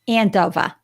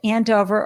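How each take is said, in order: First: The town name is said in a Boston accent. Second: The town name is said in a plain accent.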